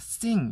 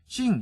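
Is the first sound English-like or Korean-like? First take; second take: English; Korean. First: The s is a clear English s sound. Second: The s is a Korean-style s sound. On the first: The speaker calls it right. "sing 이래야 되는데" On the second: The speaker calls it wrong. "sing 이래요. 그러니까 잘못된 발음"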